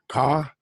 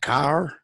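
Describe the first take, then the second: First: The final R sound is dropped. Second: The final R sound is pronounced.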